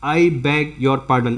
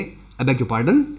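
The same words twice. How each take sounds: First: The phrase is said slowly, word by word. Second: The phrase is said quickly, words run together. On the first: The speaker calls it wrong. "इसको अगर आप ऐसे बोलेंगे" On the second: The speaker calls it right. "ये बहुत तेजी से बोला जाता है"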